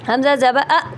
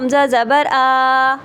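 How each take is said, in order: First: The final vowel is clipped with a jerk. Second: The final vowel is drawn out long. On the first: "ये झटका" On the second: "ये लंबा हो गया"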